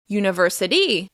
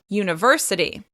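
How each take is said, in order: First: The stress is on the last syllable. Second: The stress is on a middle syllable. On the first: The speaker calls it wrong. "or to the end of the word" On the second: The speaker calls it right. "make sure you're stressing this word on the right syllable"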